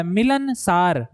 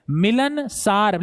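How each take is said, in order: First: मिलनसार stretched out slowly with each syllable clear; teacher modelling मिलनसार slowly for students; slow careful pronunciation. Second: मिलनसार drawn out slowly so the सार ending is heard; teacher repeating मिलनसार slowly so it sticks; slow careful pronunciation. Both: Shown as a demonstration. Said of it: "आप उच्चारण इसका सीखिए".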